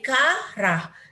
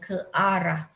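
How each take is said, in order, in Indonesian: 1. Kedua vokal menyatu menjadi satu suku kata. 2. Kedua vokal diucapkan sebagai suku kata yang terpisah. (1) "Kalau tak ada hamzah jadi karah" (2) "Barulah bunyinya ke arah"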